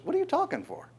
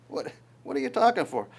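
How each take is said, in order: First: High, incredulous mock question; a squeaky, amused divine rebuke; God's retort. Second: Said in the usual way. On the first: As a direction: shoot the pitch way up in disbelief. God retorts to Moses.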